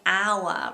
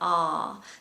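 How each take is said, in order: First: The word sounds like 'hour', with an ow vowel. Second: The word sounds like 'ar', with an open vowel. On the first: The speaker calls it wrong. "common mistake is saying hour" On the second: The speaker calls it right. "rather than R"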